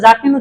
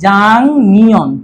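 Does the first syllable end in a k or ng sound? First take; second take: k; ng. First: The first syllable ends with a k sound. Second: The first syllable ends with an ng sound. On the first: The speaker calls it wrong. "যাক নিউন উচ্চারণটা ভুল" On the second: The speaker calls it right. "আমাদের উচ্চারণটা হবে কি জাং নিয়ন"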